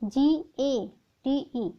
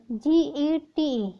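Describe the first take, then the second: First: Each letter of GATE drawn out very slowly; very slow spelling. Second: Slow spelled-out letters; spelling slowly. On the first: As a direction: stretch every letter, slowest take. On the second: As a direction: spell each letter clearly. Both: Shown as a demonstration. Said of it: "तो GATE".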